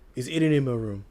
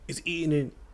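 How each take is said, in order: First: It is said in a relaxed, natural voice. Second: It is said in a strained, forced voice.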